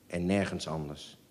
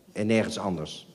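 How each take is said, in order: First: Much softer, fading away; fading echo. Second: Said in the usual way. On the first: Shown as a demonstration. Narrator softly echoing en nergens anders, fading. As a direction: let the repeated en nergens anders die out softly.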